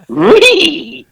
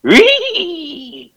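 First: Scrappy Doo impression. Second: High, giddy cartoon-dog squeal; Scooby-Doo impression. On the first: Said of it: "That sounded like Scrappy Doo". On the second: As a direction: yelp like a happy cartoon dog. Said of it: "my best impression of Scooby-Doo".

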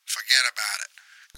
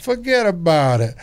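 First: Put-on softer New York accent, "Forget about it" with a falling close; a dismissive New York "Forget about it". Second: Higher, louder New York accent, "Forget about it" hammed up. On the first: Clerk hangs up on the customer with a New York "Forget about it". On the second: Host tops the friend's New York bit, louder and hammed up. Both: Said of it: "New York accent would go".

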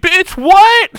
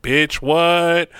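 First: Very high, loud mock yell; loud, high-pitched stunned outburst; imitated outraged shock. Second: Raised pitch, far less loud retort; mimicked retort, controlled volume; imitated cool comeback. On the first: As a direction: shriek it in comic disbelief. Retold shock at losing arm. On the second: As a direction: throw his words back at him. Her retort to his shock.

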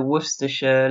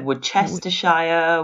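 First: Worcestershire run together, wuss-ter-sher; Worcestershire with a short sher ending; Worcestershire said the local way, no shire; local pronunciation. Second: Worcestershire with a hard C and full shire; Worcestershire spelled out, wor-ces-ter-shire; Worcestershire said as written, ending in shire; heard-it-said version. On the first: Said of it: "We say shire". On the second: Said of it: "Now, I've heard". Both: Shown as a demonstration.

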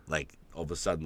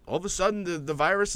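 First: Said in the usual way. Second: High, amazed restart; sudden surprise. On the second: Shown as a demonstration. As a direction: lift the voice in mock amazement.

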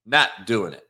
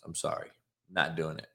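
First: Not doing it, NOT punched and louder; firm refusal. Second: Soft, dropped-away refusal; quiet refusal. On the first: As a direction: put your foot down on NOT. Repeats refusal, second take firm. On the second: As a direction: say it under your breath. Repeats refusal, first take soft. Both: Real, not acted.

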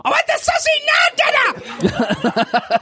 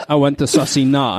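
First: Very high-pitched screaming tantrum; child's screamed demand. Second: Said in the usual way. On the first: Acted. Child demands food from dad, screamed tantrum. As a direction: screech it like a furious impatient small child. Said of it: "of course, they want it now". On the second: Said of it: "And he said".

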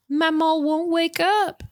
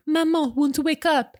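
First: Put-on high little-kid voice slipping into a Southern accent; slow, high Southern drawl for a small child; Southern-tinged child's plea, pitched high; accidental Southern accent. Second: Put-on high little-boy voice with a French accent; small French child, pitched way up; attempted French accent. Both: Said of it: "I don't know why I went southern there".

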